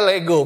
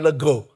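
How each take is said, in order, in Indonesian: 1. Dilafalkan seperti kata Yunani. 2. Dilafalkan seperti kata Jawa. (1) "bacanya Lego, benar" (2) "bukan Lego"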